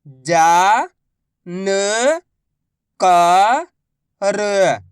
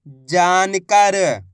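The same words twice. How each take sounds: First: Very slow, each syllable drawn out. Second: Said in the usual way. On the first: Shown as a demonstration. Teacher sounding out a word for pupils, slow syllables. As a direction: spell the word out slowly for a child. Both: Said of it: "मैं किस तरीके से".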